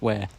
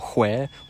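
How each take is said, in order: First: It starts with a plain 'w' sound. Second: It starts with a breathy 'hw' sound. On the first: This is the merged pronunciation used by Australians. "We all say wine, what, where" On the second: This is the older unmerged pronunciation. "no one in Australia says whine or what or where"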